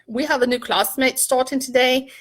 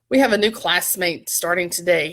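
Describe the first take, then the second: First: It is said in a put-on British accent. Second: It is said in the speaker's usual accent.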